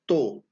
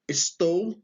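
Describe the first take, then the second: First: The word is said in a shortened form. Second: The word is said in its full form.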